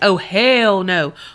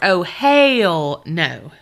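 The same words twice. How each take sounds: First: It is said in the speaker's ordinary voice. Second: It is said in an imitated, different accent.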